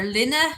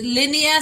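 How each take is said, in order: First: "Linna" in two syllables, LIN-a, rising as a question; alternative pronunciation. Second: "Linnea" said LIN-ee-a, three syllables; trying a pronunciation. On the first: Host checking a viewer's name, asking "Linna" as LIN-a. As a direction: offer "Linna" as the shorter LIN-a. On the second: Host unsure of a viewer's name, sounding out "Linnea" as LIN-ee-a. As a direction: try "Linnea" with stress up front, LIN-ee-a. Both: Shown as a demonstration. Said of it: "I'm not great for pronounce".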